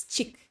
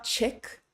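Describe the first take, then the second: First: Chick said like cheek, cut short; crisp ee vowel. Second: Chick with a short ih, like the English word; wrong, loose vowel in chick; lax English vowel. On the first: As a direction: correct pure ee in chick. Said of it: "it's chick". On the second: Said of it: "it's not chick". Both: Shown as a demonstration.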